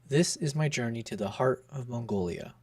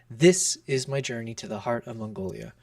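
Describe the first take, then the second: First: The stress is on "this" and "heart". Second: The stress is on "this" only.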